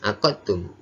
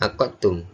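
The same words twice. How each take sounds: The two takes are said the same way.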